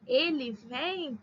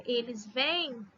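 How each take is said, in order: First: "vem" drawn out slowly; slow singular vem. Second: "vêm" drawn out slowly; slow plural vêm. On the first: Teacher dictating singular form slowly. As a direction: spell out "Ele vem" slowly for class. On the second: Teacher dictating plural form slowly. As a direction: spell out "eles vêm" slowly for class. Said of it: "com acento circunflexo pra diferenciar". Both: Shown as a demonstration.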